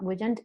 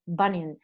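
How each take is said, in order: First: The second syllable sounds like 'jand'. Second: The second syllable sounds like 'nyan'. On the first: The speaker calls it wrong. "I said it wrong because I say Bujand, you know, horrible" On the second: The speaker calls it right. "it's Bunyan"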